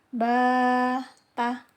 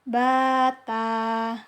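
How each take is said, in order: First: Each vowel is held long, about two beats. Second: The vowels are short and run together quickly. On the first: The speaker calls it right. "Maka bacanya seperti ini" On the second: The speaker calls it wrong. "nggak boleh bacanya bata"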